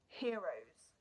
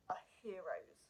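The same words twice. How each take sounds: First: Said in the usual way. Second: Choked-up real whisper; barely voiced, moved to tears; emotional whisper. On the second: Real, not acted. Honouring the passengers of the flight, whispered. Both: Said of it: "I get quite emotional".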